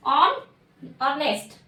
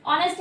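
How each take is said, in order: First: On, then ऑनेस्ट, the first syllable split off; ऑनेस्ट shown syllable by syllable; broken into syllables. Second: Said in the usual way. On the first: Shown as a demonstration. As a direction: say on, pause, then ऑनेस्ट whole. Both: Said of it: "multi, यानी दो बन रहे हैं".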